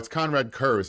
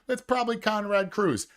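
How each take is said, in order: First: The surname sounds like 'Kurz', with an er vowel. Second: The surname sounds like 'Cruz', with an oo vowel. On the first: The speaker calls it right. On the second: The speaker calls it wrong.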